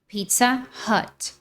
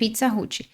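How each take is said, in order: First: It is said with American English sounds. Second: It is said with Brazilian Portuguese sounds. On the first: The speaker calls it right. "o mais natural em inglês é Pizza Hut" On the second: The speaker calls it wrong. "Muitos brasileiros falam pizza, pizza Hut"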